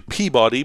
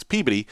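First: Peabody as PEE-BAH-dee, full second syllable; mispronounced Peabody. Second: Peabody as PEE-buh-dee, middle vowel swallowed; correct local Peabody. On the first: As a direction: say "Peabody" spelled out, like pea plus body. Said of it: "most people would say Peabody". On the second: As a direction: squash "Peabody" into PEE-b'dee, stress up front. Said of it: "correct pronunciation is Peabody". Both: Shown as a demonstration.

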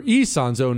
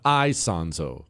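First: "Isonzo" said as ee-SON-zo; ee-sound pronunciation. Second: "Isonzo" said as eye-SON-zo; eye-sound pronunciation. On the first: Host relaying listener's correction of "Isonzo", said ee-SON-zo. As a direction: begin "Isonzo" with a long EE. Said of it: "This lady said it's". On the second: Host showing the rejected "Isonzo", said eye-SON-zo. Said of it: "not Isonzo". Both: Shown as a demonstration.

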